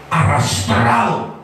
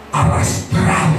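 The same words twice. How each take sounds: First: "Arrastrado" said slowly and lower, dragging the word; drawn-out low. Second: Said in the usual way. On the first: Shown as a demonstration. Preacher drags out "Arrastrado" low and slow to show the crawling man.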